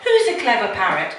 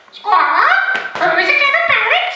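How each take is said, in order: First: Said in the usual way. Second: High, loud, quick squawking parrot; shrieky mimicking bird. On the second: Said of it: "It's my parrot voice".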